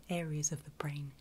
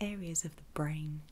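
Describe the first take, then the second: No difference in how they are said.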